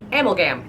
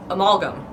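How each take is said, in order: First: Amalgam as AM-ul-gam; own pronunciation. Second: Amalgam as uh-MAL-gum; standard pronunciation. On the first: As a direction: stress AM at the start of amalgam. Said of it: "I pronounce it". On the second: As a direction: stress the middle of amalgam. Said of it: "I don't do this amalgam stuff". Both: Shown as a demonstration.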